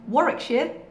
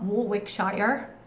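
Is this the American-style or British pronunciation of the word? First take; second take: British; American-style. First: It is said the British way, syllables shortened. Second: It is said the American way, syllables spelled out. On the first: The speaker calls it right. "We've got the word Warwickshire" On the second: The speaker calls it wrong. "not Warwickshire"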